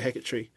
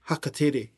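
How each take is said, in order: First: The name is said in an anglicized way. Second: The name is said in a Māori way. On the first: The speaker calls it wrong. "has always been called Hackettree" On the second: The speaker calls it right. "is actually Hakatere"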